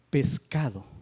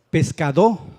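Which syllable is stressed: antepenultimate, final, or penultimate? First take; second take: penultimate; final. First: The stress is on the penultimate syllable. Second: The stress is on the final syllable. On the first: The speaker calls it right. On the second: The speaker calls it wrong.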